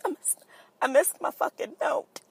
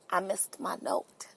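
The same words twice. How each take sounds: First: Mock anguish. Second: Breathy hushed confession; hushed whisper. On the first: Mock anguish over missed note. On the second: Pretend. Host mourns her missed note in a whisper. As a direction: whisper it like a tragic secret.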